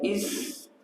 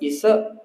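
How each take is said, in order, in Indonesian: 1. Bunyi s berakhir dengan udara lembut yang berdesah. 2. Bunyi s berakhir dengan gema yang memantul. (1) "Kalau is itu baru hamas" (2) "Kalau Isa itu qalqalah"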